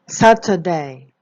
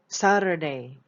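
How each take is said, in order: First: It is said in a British accent. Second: It is said in an American accent.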